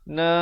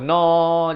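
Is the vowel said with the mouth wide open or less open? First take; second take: less open; wide open. First: The vowel is said with the mouth less open. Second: The vowel is said with the mouth wide open. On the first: The speaker calls it right. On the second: The speaker calls it wrong.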